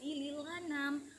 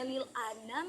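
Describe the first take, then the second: First: The lam links straight into 'anam' without a stop. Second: A glottal stop separates 'lil' from 'anam'. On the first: "menjadi ... karena pemindahan harokat ke huruf sukun sebelumnya" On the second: "yang sebelumnya"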